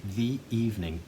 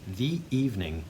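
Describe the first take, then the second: First: A glottal catch separates the two words. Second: A glottal catch separates the two words.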